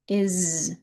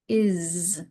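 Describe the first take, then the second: First: The word ends with a buzzing z sound. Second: The word ends with a buzzing z sound.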